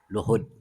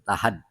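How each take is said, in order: First: The first vowel is an 'u' sound. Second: The first vowel is an 'a' sound. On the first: "Wadommiha, dan dibaca dommah" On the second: "dengan dibaca fathah lamnya"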